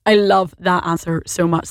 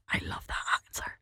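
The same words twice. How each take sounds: First: Said in the usual way. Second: Hushed, breathy aside to listeners; soft whispered delight. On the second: Real, not acted. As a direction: lean in and whisper it like a secret. Host reacts to listener's answer.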